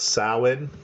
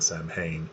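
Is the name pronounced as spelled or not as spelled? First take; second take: not as spelled; as spelled. First: The name is not pronounced as it is spelled. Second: The name is pronounced just as it is spelled. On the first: The speaker calls it right. "it's uh, pronounced Samhain" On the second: The speaker calls it wrong. "I was probably saying Samhain, um, pronouncing it phonetically"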